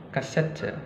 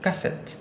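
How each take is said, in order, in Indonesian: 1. E di akhir itu jelas dilafalkan. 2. E di akhir itu dihilangkan dan diam. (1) "Tetap dilafalkan E-nya" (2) "tidak dilafalkan"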